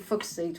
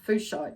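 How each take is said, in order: First: The first syllable sounds like 'fook'. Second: The first syllable does not sound like 'fook'. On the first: The speaker calls it right. "but it's actually" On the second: The speaker calls it wrong. "usually people pronounce it"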